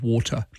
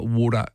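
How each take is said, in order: First: The middle T is a clear T. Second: The middle T is softened toward a D.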